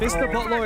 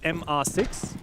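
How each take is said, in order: First: The first part is read as the word Mister. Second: The first part is spelled out letter by letter. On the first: The speaker calls it wrong. "It's not Mister Botlaw" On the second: The speaker calls it right. "It's M R six"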